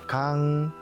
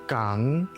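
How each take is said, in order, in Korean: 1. 첫 자음은 예사소리이고 약하게 납니다. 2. 첫 자음은 예사소리이고 약하게 납니다.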